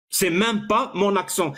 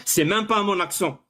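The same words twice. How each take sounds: The two takes are said the same way.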